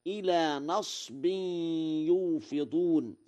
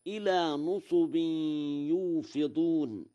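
First: A then silent sad in نصب; Warsh reading. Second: Two u vowels in نصب, melodic recitation; damma reading. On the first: Teacher shows Warsh's reading, نصب as nasbin. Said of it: "وقيل نصب ونصب". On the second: Teacher quotes the verse before Warsh's, نصب as nusubin. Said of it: "قرأ ورش". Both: Shown as a demonstration.

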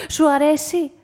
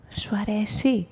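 First: Lightly voiced, lively question; Anthoula asking. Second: Lower, softer lady's question; Mrs Teloni asking. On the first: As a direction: ask your companion brightly, a little raised. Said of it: "ρώτησε η Ανθούλα τον Πέτρο". (ζωηρή ερώτηση της Ανθούλας) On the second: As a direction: ask gently in a lowered voice. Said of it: "τον ρώτησε η κυρία Τελώνη". (χαμηλόφωνη, απαλή ερώτηση κυρίας) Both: A narrator's reading.

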